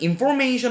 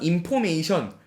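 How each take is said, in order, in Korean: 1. 원어민 영어 발음으로 말했어요. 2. 한국식 발음으로 말했어요. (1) "정확한 영어 발음으로는" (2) "요런 말들을 굉장히 많이 쓰잖아요"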